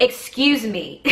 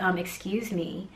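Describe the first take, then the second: First: Pointed, raised 'excuse me'; emphatic insistence. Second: Soft, slow 'excuse me'; polite interjection. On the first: Mom's last try at the woman's back, emphatic. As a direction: demand attention after being ignored. Third try after being ignored. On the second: Mom first approaches the yelling woman, politely. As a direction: try politely to get attention, quietly. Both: Retold or imitated.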